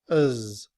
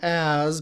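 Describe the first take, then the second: First: The word has a weak schwa vowel. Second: The word has a full open vowel. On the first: "in reduced form, as is written with the schwa"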